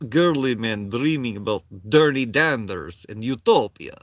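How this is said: It is read in a put-on Russian accent.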